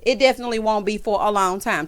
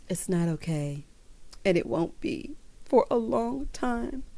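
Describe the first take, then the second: First: Said in the usual way. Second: Slow, soft, drawn-out dramatic delivery; quietly milk the drama, mocking her; dramatic Erika impression. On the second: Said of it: "slow and dramatic".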